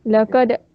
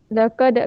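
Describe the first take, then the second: Both takes have the same delivery.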